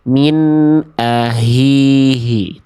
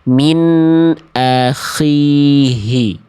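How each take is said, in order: First: The middle consonant is a tight, pharyngeal h. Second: The middle consonant is a scraping, snore-like kh. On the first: The speaker calls it wrong. "itu jadinya kayak jadi huruf H besar itu" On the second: The speaker calls it right. "seharusnya dibunyinya gimana?"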